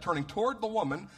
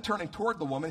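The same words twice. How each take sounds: First: "turning toward the woman" lifted higher and stressed; pointed emphasis. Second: Said in the usual way. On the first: Shown as a demonstration. Preacher telling listeners to catch "turning toward the woman", pointedly emphasized. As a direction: underline "turning toward the woman", pitch raised. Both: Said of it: "catch that, turning toward the woman".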